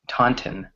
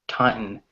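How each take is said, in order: First: The T sounds are pronounced clearly and fully. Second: The T sounds are softened, the middle nearly dropped. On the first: "British people just say Taunton, or they actually pronounce the T's" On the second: "Taunton in American English"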